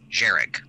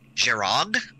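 First: The second syllable sounds like 'rig'. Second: The second syllable sounds like 'rog'. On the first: This is how the reader says it in their head. "which I pronounce as Jerig" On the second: This is how the author's guide says to say it. "apparently you pronounce that word something like Jerog"

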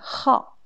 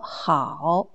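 First: The syllable has a sharp falling tone. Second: The syllable has a low dipping tone. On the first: It means to like or be fond of. "quatrième ton" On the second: It means good or well. "La première prononciation, c'est troisième ton comme dans 你好"

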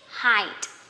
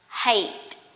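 First: The vowel matches the vowel in 'high'. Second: The vowel differs from the vowel in 'high'. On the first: The speaker calls it right. "but actually this is height, somehow the same pronunciation" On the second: The speaker calls it wrong. "usually people will pronounce this is height"

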